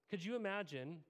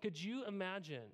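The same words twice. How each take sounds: The two takes are said the same way.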